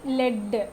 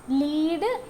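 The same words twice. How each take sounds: First: "ലെഡ്" with a short e, falling; clipped "ലെഡ്" against the long one; homonym demo. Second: "ലീഡ്" with a long ee, rising; slow, clear "ലീഡ്" with a long vowel; homonym demo. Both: Shown as a demonstration. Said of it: "പിന്നെ വരുന്ന example ആണ്".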